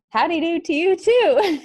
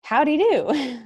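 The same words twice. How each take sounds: First: High, loud mock-excited reply. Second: Slow, high mock of the misheard question; misheard drawl. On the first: Tired aide answering the doctor, loud and fake-excited. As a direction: blurt it out with forced cheer. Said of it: "I said it very loud, too". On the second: What the aide heard the doctor ask, a slow mock drawl. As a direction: drag it out the way she misheard it. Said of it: "So I heard".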